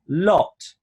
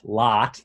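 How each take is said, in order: First: The vowel is said with rounded lips. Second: The vowel is open and American. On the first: "round the corners a bit" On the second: "that's very American"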